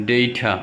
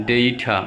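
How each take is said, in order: No difference in how they are said.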